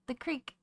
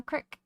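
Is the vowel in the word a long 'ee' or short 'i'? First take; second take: long ee; short i. First: The vowel is a long 'ee' sound. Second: The vowel is a short 'i' sound. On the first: A stream in general. "You mean the creek?" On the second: The local stream out back of one's house. "Did you say cricks?"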